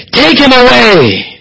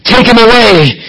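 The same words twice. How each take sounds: First: "Take him away!" higher and drawn out, slow; stretched higher cry. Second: A raised, emphatic call; emphatic cry. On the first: The crowd presses Pilate, higher slower insistent cry. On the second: The crowd demands Jesus be taken, raised emphatic cry. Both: Retold or imitated. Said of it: "It was emphatic".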